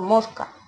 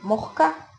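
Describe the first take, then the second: First: The s before the c is clear. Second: The s before the c is aspirated.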